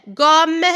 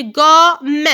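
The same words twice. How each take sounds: First: Said in the usual way. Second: "gomme" slow, in two beats; syllable by syllable. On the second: Shown as a demonstration. Teacher counting syllables for children, slow separate beats. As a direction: stretch "gomme", sounding the final e. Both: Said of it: "il y a deux syllabes".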